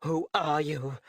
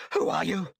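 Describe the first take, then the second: First: Shaken. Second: Woman startled by an intruder in her office; startled shriek. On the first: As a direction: ask again, shaken and wary. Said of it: "Turning back with a pale face". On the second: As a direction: gasp it out in fright at a stranger. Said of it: "the woman shrieked into the man's ear". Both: A narrator's reading.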